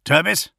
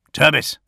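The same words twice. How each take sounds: First: Higher questioning call, rising at the end; anxious calling. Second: Louder, higher yell of a name. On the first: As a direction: call the name again, fearing the worst. Calling again, unanswered. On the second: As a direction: shout the name into the radio. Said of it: "Gilliman yelled into the vox". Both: A narrator's reading.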